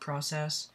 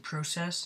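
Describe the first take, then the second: First: It is pronounced a non-Canadian way. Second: It is pronounced the Canadian way. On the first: "not process" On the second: "here in Canada we say process"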